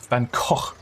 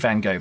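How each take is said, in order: First: The name is said a different, less common way. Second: The name is said the everyday English way. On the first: This is how it was taught in an art course. "I think it was Van Gogh. Van Gogh was the pronunciation when I did my introduction to art" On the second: This is how people usually say it. "we say Van Gogh"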